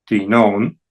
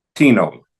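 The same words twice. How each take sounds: First: "tinon" as ti-NON, rising; stress on last syllable. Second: "tino" as TI-no, falling; stress on first syllable. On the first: Teacher showing the accented ending, ti-NON stressed last. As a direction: push the weight onto NON in "tinon". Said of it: "en la última sílaba". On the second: Teacher closing interrogative forms, TI-no stressed up front. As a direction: hit the TI of "tino", let no drop. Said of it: "la primera sílaba". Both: Shown as a demonstration.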